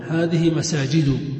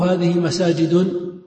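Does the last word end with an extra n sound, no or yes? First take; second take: no; yes. First: The last word ends without an added n sound. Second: The last word ends with an added n sound. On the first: The speaker calls it right. "لا تنون" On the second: The speaker calls it wrong. "تنون أو لا تنون؟"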